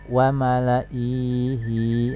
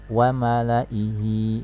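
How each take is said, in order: First: The final i vowel is held long. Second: The final i vowel is cut short. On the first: The speaker calls it wrong. "Tidak dibaca misalnya wa malaihi. Nah, ini salah ya" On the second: The speaker calls it right. "yang betul adalah ini i-nya dibaca pendek"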